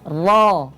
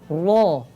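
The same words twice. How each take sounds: First: The sound is made with unrounded lips. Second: The sound is made with rounded lips. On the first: The speaker calls it right. "tidak dibulatkan kedua bibirnya" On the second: The speaker calls it wrong. "Bukan ro"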